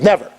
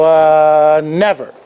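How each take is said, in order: First: The word comes at once, with no pause. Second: The word comes after a hesitant pause. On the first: It is a reflex answer. "Immediately. Knee-jerk reaction" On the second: The person may be thinking it over. "the difference was the pause"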